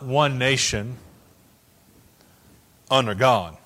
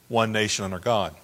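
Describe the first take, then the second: First: There is a pause after "nation". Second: It flows without a pause after "nation".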